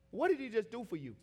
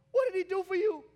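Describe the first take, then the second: First: Said in the usual way. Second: High, loud preacher's demand; real preaching shout; shouted question. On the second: Real, not acted. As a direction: throw the question hard at the congregation.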